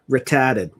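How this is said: The word is said in a Boston accent.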